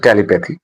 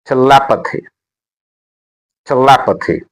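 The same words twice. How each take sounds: First: "telepathy" stressed on the first syllable, TEL-i-pathy; wrongly placed stress. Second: "telepathy" with the second syllable LEP made prominent; stress on second syllable. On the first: Teacher warning learners off a mistake, "telepathy" stressed TEL-i-pathy. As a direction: say "telepathy" as TELI-pathy, without punching LEP. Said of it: "not telepathy". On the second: Teacher showing learners where the stress is on "telepathy", stressed te-LEP-athy. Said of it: "the stress is on L". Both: Shown as a demonstration.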